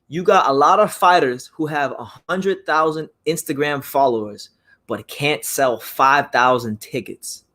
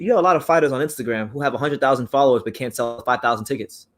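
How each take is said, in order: First: It is said slowly and deliberately. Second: It is said at a normal pace.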